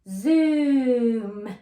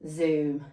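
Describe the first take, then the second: First: The word is drawn out slowly. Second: The word is said at normal length.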